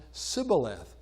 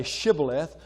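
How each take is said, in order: First: Sibboleth with a plain s, no sh; Sibboleth, s instead of sh, the western way. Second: Shibboleth with a full sh at the start; eastern Shibboleth. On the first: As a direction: start Sibboleth on a hissed s sound. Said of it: "they would now pronounce it". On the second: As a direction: start Shibboleth on a clear sh sound. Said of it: "the people on the east would say". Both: Shown as a demonstration.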